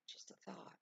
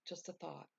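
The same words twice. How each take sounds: First: Whisper. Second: Said in the usual way. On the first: Shown as a demonstration.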